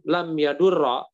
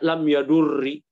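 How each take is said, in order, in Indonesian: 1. Kata kerja diakhiri dengan vokal a pendek. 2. Kata kerja diakhiri dengan vokal i pendek. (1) "kok difathahkan" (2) "Kalau dibaca kasroh lebih nggak mungkin lagi"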